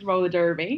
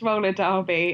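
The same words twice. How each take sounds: First: It is said in an American accent. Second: It is said in a British accent.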